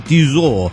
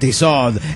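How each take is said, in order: First: The final T is silent. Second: The final T is pronounced. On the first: The speaker calls it right. "se dice Tissot" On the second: The speaker calls it wrong. "y no Tissot"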